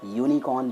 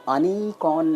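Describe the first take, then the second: First: The word begins with a 'y' sound. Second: The word begins with a plain vowel sound. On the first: The speaker calls it right. "यूनिकॉर्न पढ़ते हैं" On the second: The speaker calls it wrong. "आप इसे अनिकॉर्न नहीं पढ़ते"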